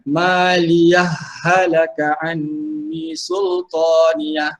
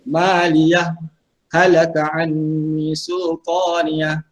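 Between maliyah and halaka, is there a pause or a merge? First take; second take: merge; pause. First: The final h merges into halaka without any pause. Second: A brief pause without breath separates maliyah and halaka. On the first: "dibaca dengan idgham ... dimasukkan" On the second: "dibaca dengan saktah ... berhenti seketika"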